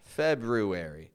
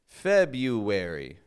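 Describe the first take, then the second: First: The R after the B is pronounced. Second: The R after the B is silent. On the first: The speaker calls it wrong. "they'll add this R" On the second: The speaker calls it right. "we drop that first R, and we say just February"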